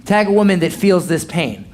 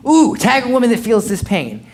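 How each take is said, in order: First: Said in the usual way. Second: A bit higher, teasing call-out; playful mock-commercial read; hammed-up ad pitch. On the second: Shown as a demonstration. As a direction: sell it like a cheesy social ad. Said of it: "Make it super funny".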